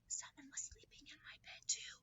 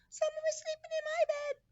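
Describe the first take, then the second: First: It is said in a whisper. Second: It is said in a high squeaky voice.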